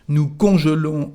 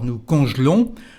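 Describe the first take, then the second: First: The vowel after conj- is fully pronounced. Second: The vowel after conj- is dropped.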